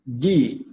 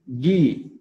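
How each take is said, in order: Both takes have the same delivery.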